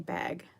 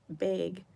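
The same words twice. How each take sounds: First: The word is said with a non-Utah pronunciation. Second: The word is said with a Utah pronunciation. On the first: "I say bag" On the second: "people in Utah say bag different than other people... they say like bag"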